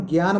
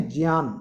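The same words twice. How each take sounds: First: Said in the usual way. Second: ज्ञान said in its pure correct form; pure pronunciation. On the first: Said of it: "अपन ज्ञान बोलते हैं". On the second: Shown as a demonstration. Teacher showing the class the pure pronunciation. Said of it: "इसका शुद्ध उच्चारण है ज्ञान".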